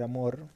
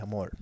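First: Said in the usual way. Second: "amor" con L final, "amol"; L en vez de R. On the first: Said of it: "En vez de decir amor". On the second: Shown as a demonstration. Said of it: "decía amor". ("amor" con ele en lugar de erre)

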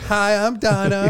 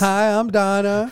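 First: Higher, slow put-on woman's voice; lightly voiced woman, laughing; Donna voice. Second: Higher, slow put-on woman's voice; lightly voiced woman, slowly; Donna voice. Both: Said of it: "I'm gonna start practicing now".

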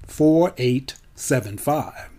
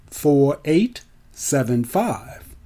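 Both takes have the same delivery.

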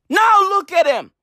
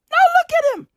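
First: Said in the usual way. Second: "look" cried out much higher in a put-on voice; high mock-horrified "Now look at him"; shrill pretend despair on "look"; mock dismay. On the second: Shown as a demonstration. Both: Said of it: "repeated with different delivery".

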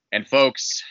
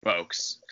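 First: "folks" rising and loud; "folks" called out, pitch up. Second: "folks" dropped low and soft; "folks" let sink to a murmur; falling, quiet folks. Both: Shown as a demonstration. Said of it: "repeated folks, fading".

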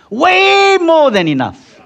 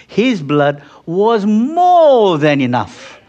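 First: "Way" cried out much higher and louder; preaching peak. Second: "more than enough" drawn out slowly and stressed; preaching emphasis. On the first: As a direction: soar up on "Way" with full force. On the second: Preacher stresses sufficiency of blood. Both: Acted.

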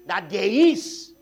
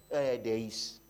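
First: Slow, loud, stretched with a rising IS; "That there is" stretched and hammered loud; emphatic insistence. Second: Said in the usual way. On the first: Real, not acted. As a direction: drive home "there is" with force. Preacher insisting after plain take.

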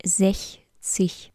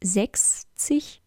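First: Sechzig said as "sech-zig" with the soft ch sound; correct pronunciation. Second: Sechzig said as "seks-zig" with a hard ks; wrong pronunciation. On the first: Teacher showing learner the correct form, sechzig with soft ch. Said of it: "sondern sechzig". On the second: Teacher showing learner the common mistake, sechzig as "seks-zig". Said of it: "Es heißt nämlich nicht sechzig". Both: Shown as a demonstration.

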